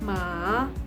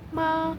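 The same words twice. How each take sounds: First: The pitch does not stay high and level. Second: The pitch stays high and level. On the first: It means horse. "itu artinya kuda" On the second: It means mother. "itu artinya ibu"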